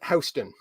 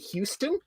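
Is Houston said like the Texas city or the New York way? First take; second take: New York; Texas city. First: It is said the New York local way. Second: It is said like the Texas city's name. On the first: The speaker is a New Yorker. The speaker calls it right. "New Yorkers pronounce it Houston" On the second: The speaker is not from New York. The speaker calls it wrong. "someone who isn't from New York because they'll say Houston"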